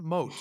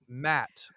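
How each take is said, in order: First: The name is said like 'Moat'. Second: The name is said like 'Matt'. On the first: The speaker calls it wrong. "It's not Moat" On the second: The speaker calls it right. "it's Matt"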